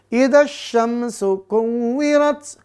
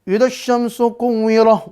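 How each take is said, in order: First: The last word ends with a t sound. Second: The last word ends with an h sound. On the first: The speaker calls it right. "tetap dibaca makhraj taknya" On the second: The speaker calls it wrong. "Waduh, jadi kuwirah itu"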